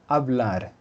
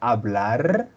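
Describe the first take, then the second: First: The final r is a single quick tap. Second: The final r is a long multiple trill. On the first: "o puede ser solo una" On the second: "Puede ser múltiple rrr"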